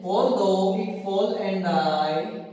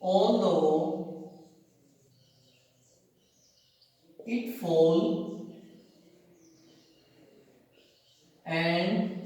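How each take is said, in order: First: Slow, drawn-out line reading. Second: Very slow, softer, word by word; slow dictation. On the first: Teacher rereads the poem line slowly for students. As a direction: stretch the whole line out slowly. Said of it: "teacher reads poem". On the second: Teacher dictates poem words slowly, softly to students. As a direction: pause after each word for writing. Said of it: "teacher dictates poem". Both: Shown as a demonstration.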